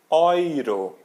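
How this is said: The first vowel sounds like 'oi'. "mas em alemão eles dizem Euro"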